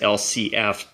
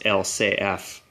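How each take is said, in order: First: The letter names are said the English way. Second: The letter names are said the French way. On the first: "for us English speakers, we would read it as" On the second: "in French, they pronounce it as"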